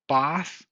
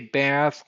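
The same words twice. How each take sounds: First: The vowel is a broad, open 'ah' sound. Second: The vowel is a flat, front 'a' sound. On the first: "You have to say bath" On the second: "you don't say bath, laugh, calf, and half like I do"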